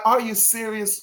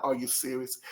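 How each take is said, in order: First: Higher, brighter "Are you serious?" with a teasing lift; playful teasing disbelief. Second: Low, soft, unimpressed "Are you serious?"; dismissive disbelief. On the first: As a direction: lift "Are you serious?" up as a friendly jab, he's playing around. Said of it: "It's like". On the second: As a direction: say "Are you serious?" quietly and flatly, as if it doesn't work. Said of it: "No, it's not that kind of". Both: Shown as a demonstration.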